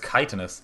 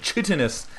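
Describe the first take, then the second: First: The word is not sounded out from its spelling. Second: The word is sounded out as it is spelled. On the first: The speaker calls it right. "But that is chitinous" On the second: The speaker calls it wrong. "I always said chitinous with my silly uh, American hooked on phonics way of reading"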